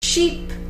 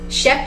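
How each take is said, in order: First: The vowel is long, like a double e. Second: The vowel is short, like a single e. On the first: The speaker calls it right. "Sheep serait avec deux" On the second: The speaker calls it wrong. "Sheep serait avec un E"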